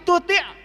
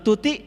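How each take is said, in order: First: It is said with Arabic sounds and final stop. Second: It is said like a plain Indonesian name. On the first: It is the Arabic word for follow. The speaker calls it right. "Tapi ini dibacanya wa in tuti'" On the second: It is a person's name. The speaker calls it wrong. "Kalau tuti' nama orang"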